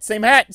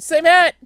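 First: Said in the usual way. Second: High, louder same hat; louder higher repeat. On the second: Shown as a demonstration. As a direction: push it up high and loud.

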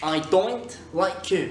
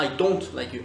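First: Slow, higher Scottish DON'T, like doint; Scottish oi vowel in don't; Scottish accent. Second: Said in the usual way. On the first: Shown as a demonstration. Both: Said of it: "C'est pas I don't like you".

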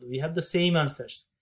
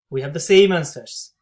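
First: Said in the usual way. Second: Louder, delighted repeat of the result; excited repeat. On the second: Real, not acted. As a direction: say it again, louder and thrilled.

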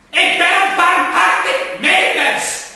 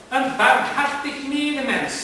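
First: High, loud, slow furious roar; bellowed. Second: Measured, higher, slow and gentle; slow reassuring claim. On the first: Gentleman bellowing his mercy at the plants, enraged. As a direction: hurl the claim at them like a threat. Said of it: "Hij brulde". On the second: Gentleman assuring the plants he means well, slow and gentle. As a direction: soothe them into trusting you. First calm claim of mercy. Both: Acted.

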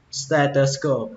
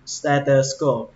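The two takes are said the same way.

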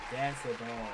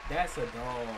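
No difference in how they are said.

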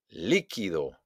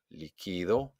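First: "Líquido" punched on LÍ, then falling; stress on first syllable. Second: Softer "líquido", weight moved to QUI; stress on QUI. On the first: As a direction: hit LÍ in "Líquido". ("Líquido" con golpe de voz en LÍ) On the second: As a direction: lean on QUI, not LÍ, in "líquido". ("líquido" suave, acentuado en QUI) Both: Shown as a demonstration. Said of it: "hago un golpe de voz".

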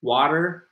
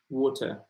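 First: American "Water" with final r; American pronunciation. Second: British "water" with no final r; British pronunciation. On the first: Teacher contrasting with British speech, American "Water" with an r. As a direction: say "Water" as WAH-der, American style. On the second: Teacher contrasting with American speech, British "water" without r. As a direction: say "water" as WAW-tuh, British style. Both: Shown as a demonstration. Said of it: "It's very different".

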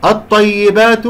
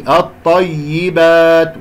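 First: الطيبات high and loud on the doubled ya; stressed ya. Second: الطيبات with the doubled ya pressed; stressed ya. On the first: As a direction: punch the ya of الطيبات. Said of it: "هذه التي ننبرها". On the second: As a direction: lean on the ya of الطيبات. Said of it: "ومع النبر". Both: Shown as a demonstration.

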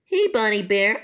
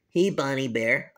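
First: A lightly raised cartoon kid greeting; chirpy cartoon kid hello; higher character voice. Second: A lightly lowered cartoon kid greeting; low cartoon kid hello; lower character voice. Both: Kid characters each greet Bonnie.

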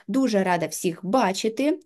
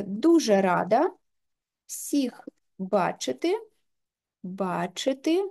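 First: Said in the usual way. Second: Slow, drawn-out dictation while typing. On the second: Shown as a demonstration. Teacher dictating her sample text into the app, slowly. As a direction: spell out each word slowly as she types the text. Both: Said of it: "можемо ввести сюди свій текст".

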